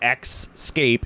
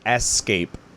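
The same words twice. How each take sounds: First: The word begins with an 'ex' sound. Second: The word begins with an 'es' sound. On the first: The speaker calls it wrong. "Not escape" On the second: The speaker calls it right. "it's escape, not X"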